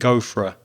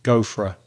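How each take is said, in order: First: 'For a' are weak and almost disappear. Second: 'For a' are weak and almost disappear.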